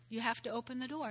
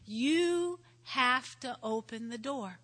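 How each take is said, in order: First: Quick, softer "You have to open the door"; quiet echo of the point; soft repeat. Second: Slow, stressed "You have to open the door"; preacher driving it home; emphatic. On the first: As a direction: let it fall away gently. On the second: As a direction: lean hard on each word. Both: Real, not acted.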